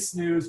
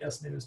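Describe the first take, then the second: First: The S is blended into one syllable. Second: The S is said as a separate letter. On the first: This is how the speaker usually says the name. "I say Snooze" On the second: This might be the correct way to say the name. "but it might be S News"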